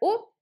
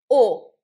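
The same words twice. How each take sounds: First: The vowel is said with relaxed lips. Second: The vowel is said with strongly rounded lips. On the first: "в русском можем сказать "о", ничего не делая практически с губами" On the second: "во французском надо обязательно сделать "о""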